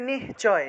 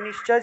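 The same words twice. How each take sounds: First: The word is split, with a breathy h sound. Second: The word is said joined, as it is written. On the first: "যদি ভাঙি তাহলে নিশ্চয়" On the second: "না ভাঙি তাহলে নিশ্চয় যেভাবে আছে এইভাবে"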